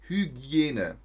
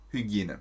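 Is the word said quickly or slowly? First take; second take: slowly; quickly. First: The word is said slowly and carefully. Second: The word is said quickly and smoothly.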